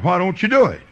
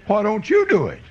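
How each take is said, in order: First: "Why don't you do it?" raised, weight on "do"; challenging question. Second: "Why don't you do it?" with "you" punched high; stress on YOU. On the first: Preacher challenging a Baptist to praise the Lord, stress on "do". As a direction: push the question, leaning on "do". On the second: Preacher turning the challenge on the listener, stress on "you". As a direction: hit "you" high, then fall away. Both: Retold or imitated.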